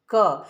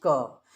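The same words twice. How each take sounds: First: क said as a bare consonant with halant, no vowel after it; half consonant demo. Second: क said in full as the syllable ka, with the अ vowel; full syllable demo. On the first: Teacher showing students क with halant. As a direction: clip क short with no trailing vowel. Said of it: "क में हलंत लगा रहता है". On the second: Teacher showing students क once अ is joined. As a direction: let क ring out with its vowel. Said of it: "तब हम इसका उच्चारण करते हैं क". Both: Shown as a demonstration.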